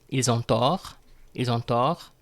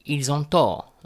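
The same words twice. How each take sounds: First: "Ils ont tort" rising on "tort"; "Ils ont tort" as a rising question; raised end intonation. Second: "Ils ont tort" falling on "tort"; "Ils ont tort" with a final drop; declarative statement. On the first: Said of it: "raise the intonation towards the end". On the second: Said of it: "Declarative statement". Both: Shown as a demonstration.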